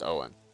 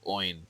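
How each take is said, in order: First: The name sounds like 'owen'. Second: The name sounds like 'oyn'. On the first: The speaker calls it right. "but it's Owen" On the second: The speaker calls it wrong. "I pronounced it as Oin"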